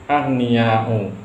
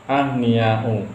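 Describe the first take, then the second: Both takes have the same delivery.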